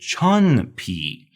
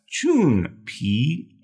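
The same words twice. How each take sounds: First: The first vowel sounds like "uh". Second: The first vowel sounds like "oo". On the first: The speaker calls it wrong. "Sometimes English speakers look at this and they want to say" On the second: The speaker calls it right. "the U has an oo sound"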